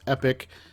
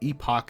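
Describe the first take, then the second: First: The second syllable sounds like 'ick'. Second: The second syllable sounds like 'ock'. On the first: This is the usual American pronunciation. "in most of the United States it's pronounced Epic" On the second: This is the British-influenced family pronunciation. "they taught me to pronounce it Epoch"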